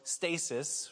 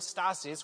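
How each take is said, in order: First: The word is given an English pronunciation. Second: The word is given a Greek pronunciation. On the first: This is the word as used in English today. "which we know as stasis" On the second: This is the original Greek word. "that same word stasis"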